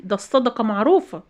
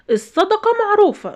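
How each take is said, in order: First: Said in the usual way. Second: معروفة pitched much higher and stressed, falling at the end; emphatic repeat. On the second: Real, not acted. The vlogger insists to viewers that charity is known, emphatic high repeat. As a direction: hammer home معروفة.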